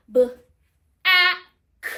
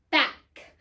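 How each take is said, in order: First: "b, a, k" as three isolated sounds, buh, a, k; sounded out. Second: Said in the usual way. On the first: Shown as a demonstration. Teacher counting three phonemes, "b, a, k" sounded out separately. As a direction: segment "b, a, k" with gaps, the vowel loud. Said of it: "three phonemes". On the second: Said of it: "My first syllable is back".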